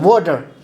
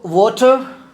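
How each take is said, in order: First: It is said with an American accent. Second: It is said with a British accent.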